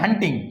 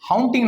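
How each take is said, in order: First: The first vowel sounds like 'uh' in 'hut'. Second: The first vowel sounds like 'ow' in 'how'. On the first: The speaker calls it right. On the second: The speaker calls it wrong. "हाउंटिंग नाही"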